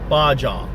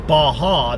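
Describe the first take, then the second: First: The middle consonant is a J sound. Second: The middle consonant is an H sound. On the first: The speaker calls it right. "B A J A. Baja" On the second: The speaker calls it wrong. "If it was Baja, that would be B A H A W"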